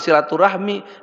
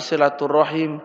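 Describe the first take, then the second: First: The word ends with the sounds 'rahmi'. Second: The word ends with the sounds 'rahim'. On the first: The speaker calls it wrong. "yang betul itu bukan silaturahmi" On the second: The speaker calls it right. "tapi silaturahim"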